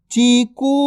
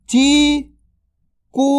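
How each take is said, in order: First: Said in the usual way. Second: Chiku drawn out very slowly; slow stretched word. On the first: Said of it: "normal take". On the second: Shown as a demonstration. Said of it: "stretched drill take". (चीकू को धीरे खींचकर बोलें)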